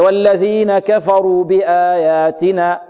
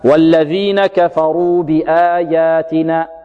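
First: The ya sound is only faintly hinted at. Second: The ya sound is fully and clearly articulated. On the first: The speaker calls it wrong. "يقول هكذا" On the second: The speaker calls it right. "الصحيح هكذا"

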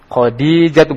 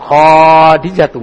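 First: The first vowel after kh is short. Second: The first vowel after kh is long. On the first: The speaker calls it right. "Khadijatu bukan Khadijatu" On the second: The speaker calls it wrong. "Berarti khonya panjang"

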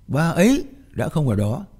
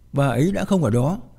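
First: The stress falls on the words bà ấy. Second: No word in the sentence is stressed. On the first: Attention is drawn to that particular person. "nghĩa là cô muốn kéo sự chú ý về con người đó" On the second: It is a plain statement of fact. "mà không nhấn mạnh vào một từ nào cả"

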